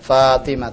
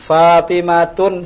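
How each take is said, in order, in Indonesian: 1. Nama itu berakhir dengan bunyi h yang lembut. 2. Nama itu berakhir dengan bunyi tun. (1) "Yang benar adalah? Fatimah itu" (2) "Fatimatun, salah"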